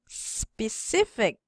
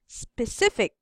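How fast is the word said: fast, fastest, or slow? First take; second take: slow; fast. First: The word is said slowly. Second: The word is said a little faster. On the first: "in a slow, slowly" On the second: "a little bit pa faster"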